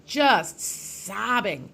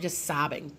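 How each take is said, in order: First: JUST and SOBBING stretched out very slowly; drawn-out emphasis. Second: Said in the usual way. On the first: Real, not acted. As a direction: dwell on each word of "just sobbing". Repeats the words for emphasis.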